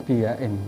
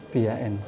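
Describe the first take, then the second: Both takes have the same delivery.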